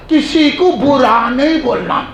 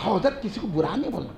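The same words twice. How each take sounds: First: Slow, drawn-out mock piety; mocking quote. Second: Much softer, lower mock-timid voice; meek imitation. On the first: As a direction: stretch it out to ridicule the saying. Mockingly quotes a fashionable saying. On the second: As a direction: imitate a timid follower, hushed. Imitates followers repeating the saying.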